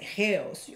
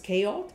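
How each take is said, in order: First: It is said with a Greek-style pronunciation. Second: It is said with an ordinary English pronunciation. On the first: "if you pronounce it like a Greek" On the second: "you pronounce it as chaos"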